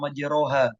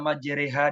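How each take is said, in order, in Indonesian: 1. Vokal setelah r bunyinya seperti 'o'. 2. Vokal setelah r bunyinya seperti 'e'. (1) "dibaca majeroha ketika di waktu tadarus masuk di dalam speaker" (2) "ada yang membaca majereha"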